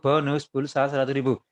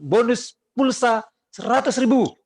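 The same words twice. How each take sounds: First: It is said calmly and without force. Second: It is said very loudly and energetically. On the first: The offer is simply mentioned without urgency. "Kalau masanya santai" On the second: The seller is pushing buyers to act now. "Wah kan ngomongnya kenceng banget"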